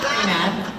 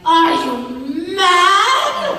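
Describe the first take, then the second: First: It is delivered toned down and restrained. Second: It is delivered big and dramatic.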